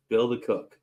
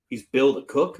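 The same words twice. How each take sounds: First: Bill the cook said plainly, falling at the end; just confirm it, let the pitch drop; flat confirmation. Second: Rising on Bill the cook, asking in disbelief; disbelieving question. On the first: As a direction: younger brother confirming it was Bill the cook. Confirming to the brother. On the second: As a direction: ask it like you can't believe it, pitch climbing at the end. Brother asks in disbelief. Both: Retold or imitated.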